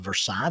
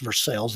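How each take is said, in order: First: It is said with the French pronunciation. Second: It is said with an Americanized pronunciation. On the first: This is how the name is said in French. "the French pronunciation" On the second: This is how the town in Kentucky says its name. "we'll pronounce it American"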